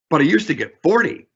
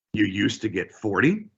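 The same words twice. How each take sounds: First: Said in the usual way. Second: Soft echo rising on forty; rising mirror. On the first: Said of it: "repeat back with an upward inflection". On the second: Shown as a demonstration. Agent mirroring the manager, soft rising question. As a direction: quietly lift forty into a question. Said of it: "upward inflection at the very last word".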